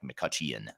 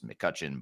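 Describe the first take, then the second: First: The E in the name is pronounced. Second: The E in the name is silent. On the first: The speaker calls it wrong. "with an E uh, in there that makes it sound like McCutcheon, which is how I wanted to pronounce it at first" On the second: The speaker calls it right. "there's an E in there that's silent"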